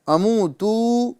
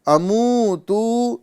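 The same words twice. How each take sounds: No difference in how they are said.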